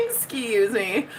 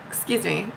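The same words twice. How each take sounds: First: Mock affront. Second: Said in the usual way. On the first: Host feigning offence at a viewer, slow "Excuse me". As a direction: EXCUSE ME drawn out slowly, rising at the end.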